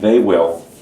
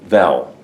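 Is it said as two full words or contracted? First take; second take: full; contracted. First: Both words are said fully and separately. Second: The words are squeezed into one short syllable.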